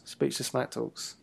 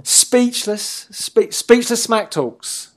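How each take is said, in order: First: Speechless smack talks muttered low and much softer; dry throwaway. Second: Speechless smack talks stretched out, higher and louder; drawn-out announcer call. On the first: Cohost repeats the made-up title to himself, much softer and slower. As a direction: drop it quietly under your breath. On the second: Cohost riffs a show title to his partner, higher, louder, slow announcer drawl. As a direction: hype it up like a ring announcer, slowly. Mock announcer name repeated. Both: Pretend.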